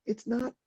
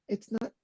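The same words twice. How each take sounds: The two takes are said the same way.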